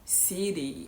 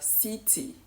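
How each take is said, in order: First: The middle T becomes a soft D. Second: The middle T is pronounced fully. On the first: "an American is more likely to say" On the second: "instead of city"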